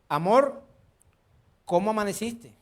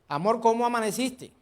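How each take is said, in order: First: The greeting is said warmly and affectionately. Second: The greeting is said with less warmth. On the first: The couple is newly married. "Primer día de casado" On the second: The couple has been married a few years. "Cinco años de casado"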